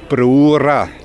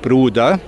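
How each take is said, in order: First: It is said in Neudorf dialect, d becoming r. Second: It is said in a Swabian dialect pronunciation. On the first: "im Neudorferischen Brura. Das D wird zu R" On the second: "Sonst in anderen schwäbischen Gemeinden"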